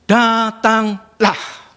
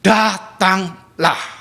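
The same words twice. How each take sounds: First: Very slow, higher drawn-out call; calm invitation. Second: Very slow, drawn-out gentle call; calm invitation. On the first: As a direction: stretch it out tenderly. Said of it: "Sebuah firman". (ajakan lembut yang sangat lambat) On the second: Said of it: "Tuhan katakan". (ajakan Yesus yang lembut dan lambat) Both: Retold or imitated.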